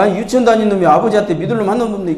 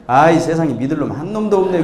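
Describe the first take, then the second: First: Higher, fast mock indignation; indignant father. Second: Grumbling little son. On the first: Father throwing his little son's words back, mock indignant. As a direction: rattle it back as an offended dad. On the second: Acted. Kindergarten son grumbling in hot bath.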